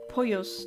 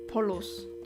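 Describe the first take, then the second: First: The double L sounds like a y. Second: The double L sounds like an l. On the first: The speaker calls it right. "It's Pollos" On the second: The speaker calls it wrong. "not Polos"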